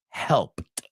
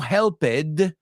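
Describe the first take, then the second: First: The ending is said as a single 't' sound. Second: The ending is said as an extra 'ed' syllable. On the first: The speaker calls it right. "quitas esa ed y en tu cabeza quiero que veas una T sola" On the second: The speaker calls it wrong. "No helped"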